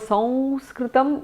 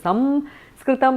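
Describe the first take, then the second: First: The nasal before the s falls between nasal types. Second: The nasal before the s is an m. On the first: This is how Maharashtra says it. "it's somewhere in between uh, different Anunasikas" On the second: This is how the south says it. "In the south it is Samskritam"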